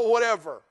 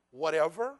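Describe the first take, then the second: First: Whatever shrugged off loud with a falling end; dismissive whatever. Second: Whatever with a rising question tune. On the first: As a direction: throw away whatever, loud and flat-falling. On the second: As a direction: ask whatever back in disbelief, rising. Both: Shown as a demonstration.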